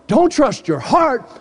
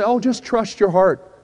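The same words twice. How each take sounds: First: "Don't trust your heart" slow, pitched high, each word weighted; slow, high, emphatic command on "Don't trust your heart"; emphatic warning. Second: Higher, slow mock well-meaning advice; drawn-out, higher-pitched quote of common advice; imitating people's advice. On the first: Real, not acted. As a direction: hit DON'T and HEART hard, drawn out. Preacher rebuts the quoted advice. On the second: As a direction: mimic people handing out easy advice, pitched up. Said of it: "ever heard people say".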